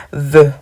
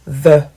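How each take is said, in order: First: "the" said like "ve", with a v sound, and louder; the wrong French way, "the" sounding like "ve"; French-style the. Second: "The" said with the tongue between the teeth; the right way, "The" with a th; correct English the. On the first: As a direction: say "the" as if it began with a V. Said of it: "comme si c'était un V". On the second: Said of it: "Ça ne se lit pas the". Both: Shown as a demonstration.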